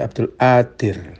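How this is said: The q sound is replaced by a glottal stop.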